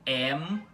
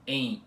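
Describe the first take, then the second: First: The vowel ends with lips closing on M. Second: The vowel is nasalized with no lip closure. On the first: The speaker calls it right. "você vai ter que pronunciar como am, em ... Com som de M mesmo, puxado" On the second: The speaker calls it wrong. "em vez de você pronunciar como"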